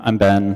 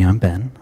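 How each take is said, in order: First: The voice is at normal loudness. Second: The voice is soft and hushed. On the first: "I can talk talk talk a little more normal" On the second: "in my N P R voice, which is uh, a lot, a lot softer"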